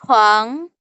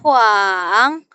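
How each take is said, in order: First: The syllable is said in the second, rising tone. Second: The syllable is said in the third, dipping tone. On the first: "nada kedua itu dia naik ke atas" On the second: "Nada ketiga itu dia naik turun"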